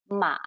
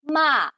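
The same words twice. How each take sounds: First: The pitch dips low, then rises again. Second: The pitch falls sharply from high to low. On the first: It can mean horse. "it goes deep, it dips down and then it goes back up" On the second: It can mean to scold. "it goes straight down"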